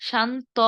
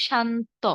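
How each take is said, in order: Both takes have the same delivery.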